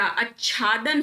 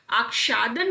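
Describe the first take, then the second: First: आच्छादन said slowly "aach-chhaadan"; doubled chh in आच्छादन; "chchh" middle in आच्छादन; correct consonant. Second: आच्छादन said "aak-shaadan"; "ksh" in place of chchh in आच्छादन; a k-sh middle in आच्छादन; wrong consonant. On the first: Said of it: "आच्छादन होता". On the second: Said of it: "आच्छादन नहीं होता". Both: Shown as a demonstration.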